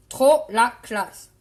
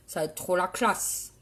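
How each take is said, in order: First: "Trop la classe" loud and slow, word by word; emphatic repeat. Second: Said in the usual way. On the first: Acted. Cagole admiring her makeup for viewers, "Trop la classe" slowly hammered out. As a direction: punch out "Trop", then space out "la classe".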